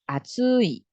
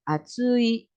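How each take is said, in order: First: The pitch drops on the final syllable. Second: The pitch stays high on the final syllable. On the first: "Yang satunya atsui" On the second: "tidak turun yang bagian akhirnya tetap di atas"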